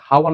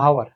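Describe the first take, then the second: First: হাওয়ার with a sounded h at the start; wrong pronunciation. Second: আওয়ার with a silent h, starting on the vowel; correct pronunciation. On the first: Teacher warns students against saying হাওয়ার with h. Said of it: "এটা কিন্তু হাওয়ার না". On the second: Teacher gives students the right form, আওয়ার without h. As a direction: begin আওয়ার straight on the vowel. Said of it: "এটা হবে কি". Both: Shown as a demonstration.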